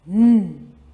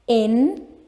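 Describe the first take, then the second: First: The letter is said as its sound. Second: The letter is said as its name. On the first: The speaker calls it right. "We say N" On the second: The speaker calls it wrong. "we don't say it like that"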